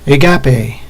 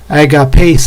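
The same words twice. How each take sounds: First: The stress is on the syllable 'ga'. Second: The stress is not on the syllable 'ga'. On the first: "I'm putting the accent on the ga" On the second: "supposedly the correct way would be"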